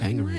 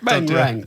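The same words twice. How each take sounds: First: It is said in the speaker's normal accent. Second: It is said in a put-on Jamaican accent.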